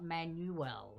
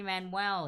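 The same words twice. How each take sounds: First: "Manuel" said slowly, as it looks spelled; wrong pronunciation. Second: "Manuel" said louder, the way he himself says it; correct pronunciation. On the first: Quiz host shows players the wrong version, slowly. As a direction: draw out "Manuel" as the wrong reading. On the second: Quiz host corrects a name for players, said confidently. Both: Shown as a demonstration. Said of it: "how he actually pronounces it".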